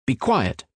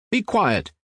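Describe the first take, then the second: First: Scolding, mild. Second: Shrill scolding. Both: A narrator's reading. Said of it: "began scolding the audience".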